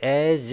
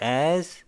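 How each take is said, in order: First: The final consonant is a voiced buzzing z. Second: The final consonant is silent or voiceless. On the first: The speaker calls it wrong. "as 이렇게 소리 내지 마시고" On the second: The speaker calls it right. "as 입모양만 잡으세요"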